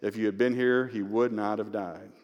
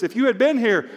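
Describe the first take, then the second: First: Subdued grief, unaccusing; humble cry, no accusation. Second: High, loud challenge to the Lord; confrontational. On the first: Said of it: "she is not chiding him or accusing him". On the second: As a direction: confront him as a grieving sister, raised voice. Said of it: "Martha kinda confronts Jesus". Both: Acted.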